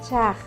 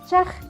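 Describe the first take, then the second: First: The vowel is long and drawn out. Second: The vowel is short and quick. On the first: It means ash. "el otro es más prolongado" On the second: It means pine kindling. "Uno es un poquito más rápido"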